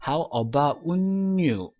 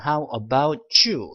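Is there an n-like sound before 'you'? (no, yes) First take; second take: yes; no. First: An n-like sound comes before 'you'. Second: The t links into 'you' without an n sound. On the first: The speaker calls it wrong. "이런 식으로 N 소리가 많이 나온다는 것인데" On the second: The speaker calls it right. "뭐라고 발음하시냐면 How about you? 라고 하시는 하셔야 되지만은"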